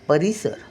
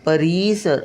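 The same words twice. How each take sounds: First: The second-syllable vowel is said short and quick. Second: The second-syllable vowel is drawn out long. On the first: The speaker calls it right. "पटकन बोलतो" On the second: The speaker calls it wrong. "असं होत नाही"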